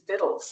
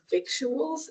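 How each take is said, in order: First: The word is said without a k sound. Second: The word is said with a k sound. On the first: The speaker calls it right. "the correct pronunciation is vittles" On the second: The speaker calls it wrong. "what I always thought of as victuals"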